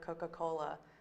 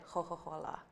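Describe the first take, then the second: First: The C sounds are plain hard consonants. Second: The C sounds are softened, Tuscan style.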